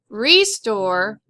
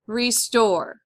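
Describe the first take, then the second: First: The stress is on the first syllable. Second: The stress is on the second syllable. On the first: The speaker calls it wrong. "Not restore" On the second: The speaker calls it right. "it's restore"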